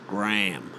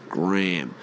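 First: It is said in an American accent. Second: The same.

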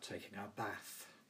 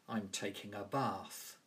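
First: It is said in a northern English accent. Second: It is said in a southern English accent.

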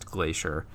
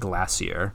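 First: The word is said the common way. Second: The word is said the less common way. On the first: This is how nearly everyone says it. "every other human that I've ever heard say it ... says Glacier" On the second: This is how one particular person says it. "except for David Attenborough ... and not Glacier"

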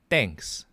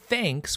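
First: The word begins with a hard D sound. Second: The word begins with a soft TH sound. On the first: "with a D sound, and it's a hard D sound" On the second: "thanks with a TH like we say it in English"

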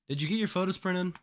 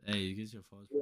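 First: It is said at normal, clear loudness. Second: It is said very quietly, barely audible.

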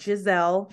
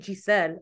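First: The name is said with a z sound. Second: The name is said without a z sound. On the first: The speaker calls it wrong. "She doesn't like it when you say it with the Z" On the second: The speaker calls it right. "I really like it when people say Giselle"

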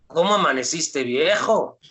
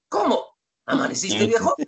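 First: It is said as one question with no break. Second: A break separates 'cómo' as its own question.

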